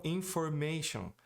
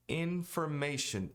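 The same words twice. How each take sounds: First: "information" with the N dropped, i-formation; learner's "information" without the N; wrong information. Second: "Information" with both N's sounded, ending -shun; slow "Information", both N's clear; correct English information. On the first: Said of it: "Se você não pronunciar o N". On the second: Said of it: "Os dois N's são pronunciados". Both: Shown as a demonstration.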